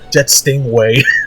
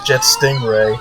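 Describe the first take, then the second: First: The name is said with a W sound. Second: The name is said with an R sound. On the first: "they pronounce it as" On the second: "his name is"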